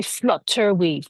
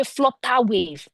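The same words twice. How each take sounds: First: FLUTTER ending in a clear "er"; schwa ending. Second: FLUTTER ending in an open "ah". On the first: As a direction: say FLUTTER as "flut-TER". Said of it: "that sound at the end of flutter". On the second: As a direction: say FLUTTER as "flo-TAH". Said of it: "we will use the A sound". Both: Shown as a demonstration.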